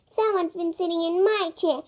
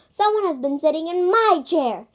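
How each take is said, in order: First: It is said in a tiny, small voice. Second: It is said in a big, deep voice. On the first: "in a teeny tiny voice" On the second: "in a great big voice"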